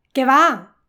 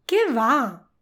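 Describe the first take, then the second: First: "Qué va" called out loud as a heads-up; shout-like warning on "Qué va". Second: "qué va" as a dismissive denial, not called out; emphatic no. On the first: Teacher repeats the contrast for learners, warning call. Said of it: "Lo repito". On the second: Teacher repeats the contrast for learners, emphatic no. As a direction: wave it away with "qué va". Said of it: "Es diferente". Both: Shown as a demonstration.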